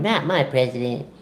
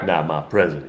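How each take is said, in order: First: It is said in a higher put-on voice. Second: It is said in a deep, low growling voice. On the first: "it's the the voice I put on it" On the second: "Give me like a deep voice"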